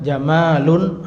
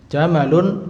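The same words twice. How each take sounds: First: Jamalun with a drawn-out "maa"; long vowel. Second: Jamalun said with a short "ma"; don't stretch the middle vowel of jamalun. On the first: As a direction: stretch the middle vowel of jamalun. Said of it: "Kalau panjang". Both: Shown as a demonstration.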